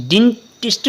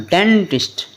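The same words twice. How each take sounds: First: डेंटिस्ट said with an ee sound, like deentist; डेंटिस्ट, first vowel as ee; wrong reading. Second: डेंटिस्ट said with a short e, like dentist; डेंटिस्ट, first vowel as e; correct reading. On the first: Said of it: "डेंटिस्ट नहीं पढ़ना". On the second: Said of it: "नहीं पढ़ना". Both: Shown as a demonstration.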